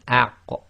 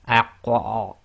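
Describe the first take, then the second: First: The final q ends with a slight release echo. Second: The final q ends with a strong, exaggerated echo. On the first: The speaker calls it right. "it's a very slight echo" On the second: The speaker calls it wrong. "you don't overdo it like aq or overemphasizing"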